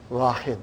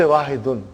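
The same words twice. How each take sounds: First: Wahid stopped on the d, no -un; ending dropped. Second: Wahidun with the ending -un sounded; full ending -un. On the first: Teacher showing students how they say one, Wahid without ending. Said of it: "They'll say". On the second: Teacher showing students the form not said in counting, Wahidun with full ending. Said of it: "they won't say Wahidun". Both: Shown as a demonstration.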